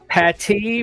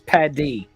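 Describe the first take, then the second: First: The middle consonant sounds like a clear T. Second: The middle consonant sounds like a soft D. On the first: "So two T's versus two D's" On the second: "two D's"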